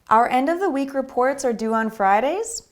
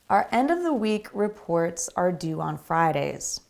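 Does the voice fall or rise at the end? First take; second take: rise; fall. First: The voice rises at the end. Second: The voice falls at the end. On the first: The speaker calls it wrong. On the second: The speaker calls it right.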